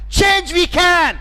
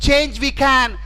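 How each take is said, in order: First: It is said with strong feeling. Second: It is said flatly, without feeling. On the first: The speaker calls it right. "He said with emotions" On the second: The speaker calls it wrong. "if he just kept telling"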